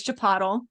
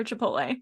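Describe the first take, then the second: First: First "Chipotle" as chi-POT-ul; mispronounced Chipotle. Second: Said in the usual way. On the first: Retold or imitated. Imitating a family member, Chipotle mispronounced as chi-POT-ul. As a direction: rhyme the end of "Chipotle" with bottle. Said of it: "family member who says Chipotle". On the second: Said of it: "for Chipotle".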